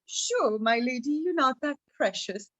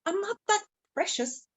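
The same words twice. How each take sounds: First: Lightly mocking agreement in an ordinary register; teasing. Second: High-pitched, mildly annoyed lady; a bit annoyed. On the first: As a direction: humour her as if you don't believe it. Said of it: "he'd laugh at her". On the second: Acted. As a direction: protest in a high voice, slightly put out. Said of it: "started to get a bit annoyed".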